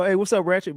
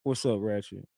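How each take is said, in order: First: Imitating Rain's usual bright phone greeting, higher; cheery "what's up" with pitch lifted; upbeat greeting. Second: Imitating a subdued greeting, lower and much softer; flat and low. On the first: Rain answering the phone as usual, upbeat and higher. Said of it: "he usually go". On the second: Rain answering the call strangely, low and soft. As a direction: drop the energy, low and quiet. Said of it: "Like that".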